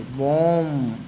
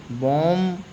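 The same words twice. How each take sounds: First: बॉम्ब ending on M, the B silent. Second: बॉम्ब with a sounded final B; wrong बॉम्ब with B; wrong pronunciation. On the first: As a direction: say बॉम्ब as "bom". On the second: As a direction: show the mistake, B pronounced at the end. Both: Shown as a demonstration. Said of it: "बॉम्ब नहीं पढ़ेंगे".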